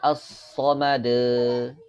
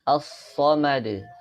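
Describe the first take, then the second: First: The final echo sound is drawn out long. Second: The final echo sound is kept short. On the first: The speaker calls it wrong. "Tidak boleh as-somade" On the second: The speaker calls it right. "ini tidak dipanjangkan"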